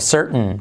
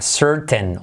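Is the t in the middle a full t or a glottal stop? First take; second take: glottal stop; full t. First: The middle t is a glottal stop. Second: The middle t is a full t sound.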